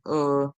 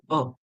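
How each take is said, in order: First: The ending has a clearly sounded r. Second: The ending is a short neutral vowel without r. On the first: "In American English, you'll hear er, where it rolls like that" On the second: "in British English, you would actually say oh, like a schwa sound"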